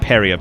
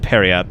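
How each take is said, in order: First: The final T sound is silent. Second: The final T sound is pronounced. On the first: "the T right is just away. fucking silent" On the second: "I've always said periap"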